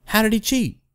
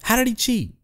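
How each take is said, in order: First: "he" in "How did he cheat?" lifted and leaned on; stress on he. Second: "did" in "How did he cheat?" punched, quiet rest; stress on did. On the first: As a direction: push the word "he", then drop off. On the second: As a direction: hit "did" hard, the rest falling away. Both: Shown as a demonstration.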